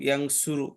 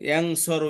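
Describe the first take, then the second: First: The middle syllable has the vowel u. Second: The middle syllable has the vowel a. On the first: "পেশ" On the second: "জবর"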